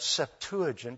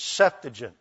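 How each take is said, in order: First: "Septuagint" stressed on the second syllable, sep-TU-agint; stress shifted within the word. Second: "Septuagint" stressed on SEP; stress on first syllable. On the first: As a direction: say "Septuagint" as sep-TOO-uh-jint. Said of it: "find that Septuagint just rolls off". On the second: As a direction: say "Septuagint" as SEP-tuh-jint. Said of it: "It is the first one". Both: Shown as a demonstration.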